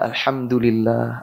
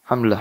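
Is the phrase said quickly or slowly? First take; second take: slowly; quickly. First: It is said slowly and fully, every syllable clear. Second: It is said quickly and clipped, repeated rapidly. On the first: The words are reflected on and meant. The speaker calls it right. "Padahal alhamdulillah... Sabar. Nggak lama kok" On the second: The words are rushed without thought. The speaker calls it wrong. "nggak tahu apa itu maksudnya"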